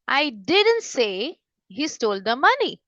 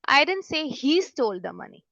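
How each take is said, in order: First: The word didn't is stressed with raised pitch. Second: The word he is stressed with raised pitch. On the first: The speaker denies having said it at all. "Suppose मैं यहाँ पे stress दे रही हूँ didn't पे" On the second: Someone else might have stolen the money. "ही पे अगर हम stress देके बोलते हैं"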